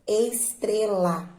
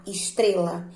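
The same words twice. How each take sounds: First: Slow, drawn-out "estrela", each syllable separate. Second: Said in the usual way. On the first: Shown as a demonstration. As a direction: sound out "estrela" slowly for pupils. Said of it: "Qual é a sílaba mais forte". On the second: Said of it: "a sílaba mais forte".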